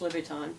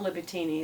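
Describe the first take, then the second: First: The name ends without an extra syllable. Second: The name ends with an extra 'ee' syllable. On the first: The speaker calls it right. "it's Louboutin heels" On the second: The speaker calls it wrong. "It's not Louboutini"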